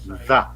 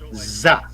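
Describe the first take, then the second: First: The word begins with a th sound. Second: The word begins with a z sound. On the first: The speaker calls it right. "the muscles in their face won't allow them to say the" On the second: The speaker calls it wrong. "It's always za"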